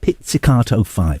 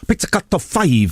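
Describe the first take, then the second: First: It is said in a plain English accent. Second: It is said in a Japanese accent.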